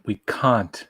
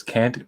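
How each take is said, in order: First: "can't" with a broad ah, as cahnt; Leonard Nimoy's pronunciation. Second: "Can't" with the short American a, as in cat; usual pronunciation. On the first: Retold or imitated. Imitating the actor's line, "can't" said with a long ah. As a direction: stretch "can't" into British-style "cahnt". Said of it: "Leonard Nimoy says, "Can't?". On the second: Shown as a demonstration. Quoting the word from the episode, "Can't" with an American short a. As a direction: say "Can't" to rhyme with ant. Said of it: "I love how, uh, Leonard Nimoy says".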